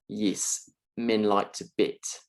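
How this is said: The E vowels sound close to I sounds. "sounds a little bit like"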